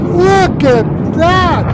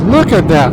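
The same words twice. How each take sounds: First: Much higher, stretched very slowly; a long marvelling cry of look at that; awestruck. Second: Excited. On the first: Vlogger marvels at the blast video, high and slow. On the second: Repeats look at that twice. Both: Real, not acted.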